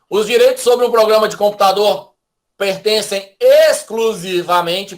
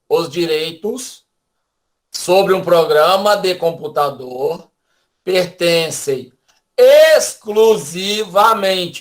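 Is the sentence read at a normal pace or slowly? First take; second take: normal; slowly. First: The sentence is read at a normal pace. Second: The sentence is read slowly with pauses.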